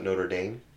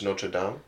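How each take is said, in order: First: The name is said in an American way. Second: The name is said in a non-American way. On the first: The speaker calls it wrong. "not Notre Dame. So whoever says Notre Dame, you're wrong" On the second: The speaker calls it right. "It's Notre Dame"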